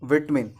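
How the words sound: It is said in a British accent. "हमारे यहाँ British English"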